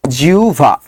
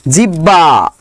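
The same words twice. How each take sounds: First: জিহ্বা said as "jiu-va"; lower-pitched model "jiuva" for জিহ্বা; correct pronunciation. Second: Said in the usual way. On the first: Shown as a demonstration. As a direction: turn the hb of জিহ্বা into a u glide plus v. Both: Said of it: "জিহ্বার উচ্চারণ কি হবে বলেন".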